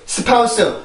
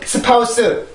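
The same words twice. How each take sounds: First: The word is said as four separate syllables. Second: The word is said as four separate syllables.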